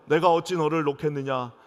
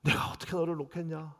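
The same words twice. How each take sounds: First: Loud scripture reading. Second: Tearful plea. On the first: Shown as a demonstration. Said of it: "우리 한번 다 같이 읽어볼까요". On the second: Acted. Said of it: "우시면서".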